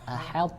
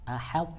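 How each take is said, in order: No difference in how they are said.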